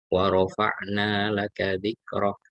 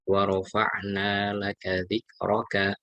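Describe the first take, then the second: First: The last word ends with a consonant. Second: The last word ends with a vowel. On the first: The reader stops on this word. "kalau diwakafkan" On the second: The reading continues without stopping. "Kalau dibaca sempurna"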